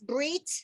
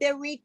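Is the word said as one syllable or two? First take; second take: one; two. First: The word is squeezed into a single syllable. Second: The word is said with two separate syllables. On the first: "but just smushed together" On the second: "Sometimes it's not bereat"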